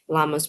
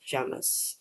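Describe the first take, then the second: First: The word is said with an English pronunciation. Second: The word is said with a Spanish pronunciation. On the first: "llamas we say in English" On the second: "we say llamas in Spanish"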